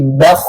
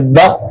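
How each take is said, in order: First: "bakh" raised from inside, lips left unrounded; the clean correct "bakh"; correct pronunciation. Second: "bakh" said with the lips pushed forward and rounded; the lips-rounded wrong "bakh"; wrong pronunciation. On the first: Teacher shows students the correct unrounded bakh. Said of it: "tapi bakh". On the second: Teacher shows students the wrong rounded bakh. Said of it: "nggak boleh bakh". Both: Shown as a demonstration.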